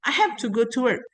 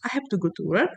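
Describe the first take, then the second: First: It is said with strong emotion, as an exclamation. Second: It is said flatly, as a plain statement.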